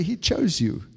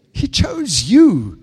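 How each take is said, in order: First: Said in the usual way. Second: "He chose you" said slowly, higher and louder, each word weighted; booming slow "He chose you"; slow emphatic declaration. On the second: Shown as a demonstration. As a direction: proclaim "He chose you" from the pulpit. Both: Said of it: "Just turn to your neighbor, say".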